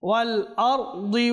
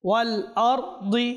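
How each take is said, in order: The two takes are said the same way.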